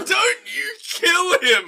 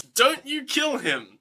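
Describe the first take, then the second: First: Very high, slow mock wail; hammed-up desperate cry. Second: Slow, high, measured quote; mock title pitch. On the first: Man begs the mob to spare the boy, hammed-up wail. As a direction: stretch it into an over-the-top shout. Exaggerated echo of man in crowd. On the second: Shown as a demonstration. Host pitches the line as the film's title, slow mock proclamation. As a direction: present it like a movie title.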